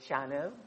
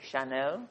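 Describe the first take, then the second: First: The name is pronounced in an English way. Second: The name is pronounced in a French way. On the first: The speaker calls it wrong. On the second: The speaker calls it right.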